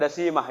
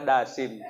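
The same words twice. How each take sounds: First: "Dasimah" with an extra final -ah syllable; wrong name ending. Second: "Dasim" low and soft, closed on m; correct name ending. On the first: Preacher showing the mistaken devil's name, "Dasimah" ending in -mah. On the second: Preacher correcting the devil's name, "Dasim" ending on a hummed m. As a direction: say "Dasim" in two syllables, stopping on m. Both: Shown as a demonstration. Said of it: "Bukan Dasimah ya".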